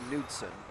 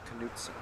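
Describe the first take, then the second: First: The initial K is silent. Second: The initial K is sounded. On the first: This is the European form of the name. "in Europe it's Knudsen" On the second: This is the American form of the name. "so the K would be pronounced"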